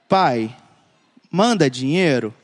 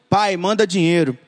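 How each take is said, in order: First: It sounds gentle and affectionate. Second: It sounds rude and demanding.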